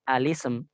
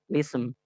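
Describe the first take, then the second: First: The word begins with an 'a' vowel. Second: The word begins directly with an L sound. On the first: "hanya dibaca langsung ke sin" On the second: "kita hilangkan dari dari ucapan bukan dari tulisan"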